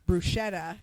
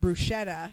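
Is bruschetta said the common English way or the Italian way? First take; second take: common English; common English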